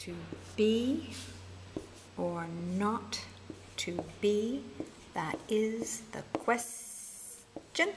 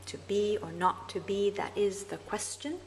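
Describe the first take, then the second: First: "To be or not to be" slowly, foot by foot with pauses; scanned feminine ending. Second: Said in the usual way. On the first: Shown as a demonstration. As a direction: stretch "quest-" out, then a separate, unstressed "Gin". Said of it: "That's the feminine ending". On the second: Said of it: "here's an example".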